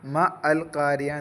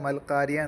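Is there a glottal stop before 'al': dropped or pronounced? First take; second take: pronounced; dropped. First: A glottal stop separates ma from al. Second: Ma and al run together without a stop. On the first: The speaker calls it wrong. "ചേർത്തി ഓതുമ്പോൾ മ അൽ കാരിയ എന്ന് പറയില്ല" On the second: The speaker calls it right. "ചേർത്തി ഓതുമ്പോൾ മൽക്കാരിയ എന്ന് പറയാം"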